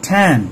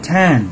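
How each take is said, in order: The two takes are said the same way.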